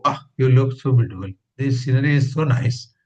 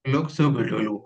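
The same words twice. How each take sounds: First: Louder, delighted astonishment; amazed exclamation. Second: Said in the usual way. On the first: Shown as a demonstration. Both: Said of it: "That means you are amazed".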